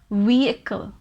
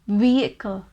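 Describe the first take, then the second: First: The middle H sound is left silent. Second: The middle H sound is left silent.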